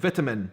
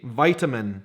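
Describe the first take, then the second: First: It is said the Scottish way, as written. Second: It is said the American way, stressing the I. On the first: "we say it exactly how it's written" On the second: "In the United States of America, you would say vitamin, a very strong emphasis on the I"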